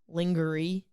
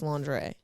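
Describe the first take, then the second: First: The word is sounded out as it is spelled. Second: The word has its usual, non-spelled pronunciation. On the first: "it's spelled lingerie" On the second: "but pronounced lingerie"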